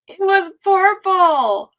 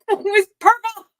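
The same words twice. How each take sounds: First: Stretched out slowly, savoring it; slow and drawn out. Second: Laughing through the words. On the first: Savoring her purple antifreeze for chat, slow and drawn out. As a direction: linger on every word. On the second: Gushing to chat about her antifreeze, laughing. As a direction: giggle it out, delighted. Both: Real, not acted.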